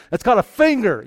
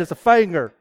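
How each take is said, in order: First: Said in the usual way. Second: Finger said as "fanger" with a southern vowel. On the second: Retold or imitated. Preacher mimics the boy's southern finger. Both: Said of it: "So no, I don't talk like that".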